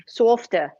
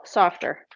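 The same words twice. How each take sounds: First: Boston accent. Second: Said in the usual way. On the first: Shown as a demonstration. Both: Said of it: "It's my Boston accent".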